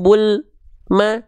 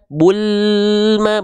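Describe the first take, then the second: First: The L is cut off with a gap before the M. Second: The L flows straight into the M without a break. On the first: The speaker calls it wrong. "bukan bul ma" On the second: The speaker calls it right. "jangan sampai ada jarak"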